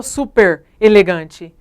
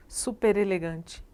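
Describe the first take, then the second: First: "super elegante" loud, with a break after super; wrong prefix split. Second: "Super elegante" softer and slower, r linked into elegante; said all together. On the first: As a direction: cut "super elegante" into two separate words. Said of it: "porque eu não falo". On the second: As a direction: join "Super elegante" smoothly as one word. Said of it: "a gente fala tudo junto". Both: Shown as a demonstration.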